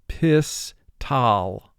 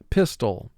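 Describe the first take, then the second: First: The second syllable has a full 'al' vowel. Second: The second syllable has a reduced, weak vowel.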